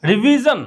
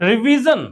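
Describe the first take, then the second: No difference in how they are said.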